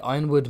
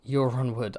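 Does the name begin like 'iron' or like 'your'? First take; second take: iron; your. First: The name begins with an 'eye' sound. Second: The name begins with a 'yur' sound. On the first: "Ironwood makes more sense" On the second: "I was a Euronwood guy"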